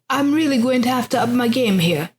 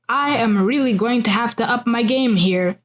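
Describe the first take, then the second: First: It is said in a British accent. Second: It is said in a non-British accent.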